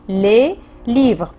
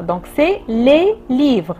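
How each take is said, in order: First: Said in the usual way. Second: "les" of "les livres" slow and leaned on, x0.7; teacher pressing the plural article; stress on LES. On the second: Shown as a demonstration. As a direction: lean on "les" to mark the plural.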